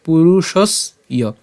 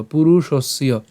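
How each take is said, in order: First: পুরুষস ইয় with a clear break before ইয়; slow, two-part পুরুষস ইয়; split pronunciation. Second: পুরুষস্য as one word, no break; connected model of পুরুষস্য; joined pronunciation. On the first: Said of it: "ইয়টাকে আমরা আলাদা উচ্চারণ করি". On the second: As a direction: run the s straight into the final ya in পুরুষস্য. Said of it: "যদি আমরা একসাথে উচ্চারণ করবো". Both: Shown as a demonstration.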